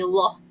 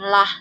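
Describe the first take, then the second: First: The 'l' and vowel are heavy and full. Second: The 'l' and vowel are light and thin. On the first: The speaker calls it right. "tapi loh" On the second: The speaker calls it wrong. "bukan lah"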